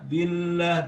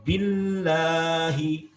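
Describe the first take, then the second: First: The double L is said lightly, like a plain consonant. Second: The double L is pressed strongly and held. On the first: The speaker calls it wrong. "belum cukup" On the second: The speaker calls it right. "Bil harus ditekan"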